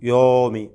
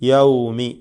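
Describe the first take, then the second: First: The first vowel is a plain 'o' sound. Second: The first vowel is an 'aw' diphthong. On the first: The speaker calls it wrong. "യാഇൻ്റെ ഫത്ഹ മാറി ഒരു ഓ എന്ന ശബ്ദത്തിലേക്ക് പോകും, ഓകാരമായി മാറും" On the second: The speaker calls it right. "സഖിനായ വാവാണ് യാഇന് ശേഷം വന്നിട്ടുള്ളത്"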